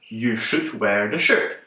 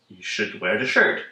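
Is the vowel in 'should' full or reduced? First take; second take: full; reduced. First: The vowel in should is a full oo. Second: The vowel in should is a weak uh. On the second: "replaced with our famous weak sound uh"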